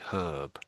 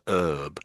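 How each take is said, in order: First: The word starts with an h sound. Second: The word starts without an h sound. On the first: This is how British people say it. "But in Britain we always say herb" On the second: This is how Americans say it. "They always say her, herb"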